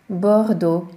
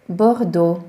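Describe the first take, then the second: First: Bordeaux as bordo again; French Bordeaux repeated. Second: Bordeaux as bordo, louder; French Bordeaux. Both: Shown as a demonstration. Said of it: "ugyanúgy A-nek ejtjük".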